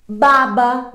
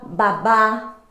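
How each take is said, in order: First: Baba louder, stress on the first BA; baba, first syllable strongest. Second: Babá with the stress on the last BÁ; babá, last syllable strongest; stress on final BÁ. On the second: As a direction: land on BÁ in babá. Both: Shown as a demonstration. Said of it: "mas de tonicidade diferente".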